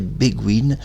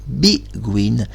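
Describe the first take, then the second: First: The first syllable has a French 'bay' vowel. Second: The first syllable has an English 'bee' vowel. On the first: This is how someone else used to say it. The speaker calls it wrong. "Il prononçait Béguine" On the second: This is the name's real pronunciation. The speaker calls it right. "mais c'est Benjamin Biguine. Elle ne se prononce pas B, mais B en anglais"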